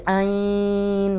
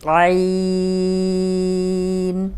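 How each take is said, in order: First: عین drawn out the wrong way; stretched عین as a warning example; wrong ain demo. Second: عین held long, smooth from the throat; correct ain demo. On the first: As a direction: show the mistaken عین. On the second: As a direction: show the proper عین slowly. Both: Shown as a demonstration. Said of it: "ایسے نہیں پڑھنا".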